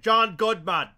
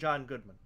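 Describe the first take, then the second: First: It is said in a caveman voice. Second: It is said in his normal voice.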